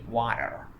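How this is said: Some sounds of the word are reduced. "if you ask an American, he would say water"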